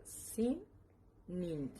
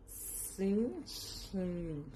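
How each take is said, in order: First: Sin Nin in two separate parts; correct pronunciation Sin Nin. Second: Sin Shin stretched out slowly; naive reading Sin Shin. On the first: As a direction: model Sin, then Nin. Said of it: "pero se pronuncia". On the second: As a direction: sound out Sin Shin as a guess. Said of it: "que según yo es". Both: Shown as a demonstration.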